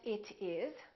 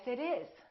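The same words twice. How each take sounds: First: The T is a crisp, clear T sound. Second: The T is a soft, D-like tap. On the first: The speaker calls it wrong. "So we don't say" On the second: The speaker calls it right. "We link this together, and therefore the T is between two vowels"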